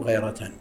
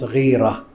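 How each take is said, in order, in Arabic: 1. الحركة الأولى هي صوت 'a'. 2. الحركة الأولى هي صوت 'i' طويل. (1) "بل هي غيرة لأن مصدر غار يغير غيرة" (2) "وينطقها كثير من الناس غيرة، هذا كلام ليس بصحيح"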